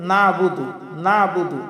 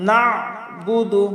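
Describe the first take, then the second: First: Quick plain "নাবুদু", no throat squeeze; ayn as hamza. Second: Slow "নাবুদু", NA pressed from mid-throat; throaty ayn. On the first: Teacher showing common mistake, ayn as hamza. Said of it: "আইনের উচ্চারণটা হামজার উচ্চারণ করি". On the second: Teacher modelling the ayn, slow throaty recitation. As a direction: squeeze the ayn after "না" in "নাবুদু". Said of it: "চাপ দিয়ে হলকের মধ্যখান থেকে". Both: Shown as a demonstration.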